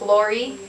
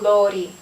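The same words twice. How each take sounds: First: The R is a retroflex, curled-tongue sound. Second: The R is a single quick tongue flip. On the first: "instead of" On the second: "flip the R"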